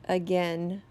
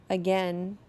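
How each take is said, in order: No difference in how they are said.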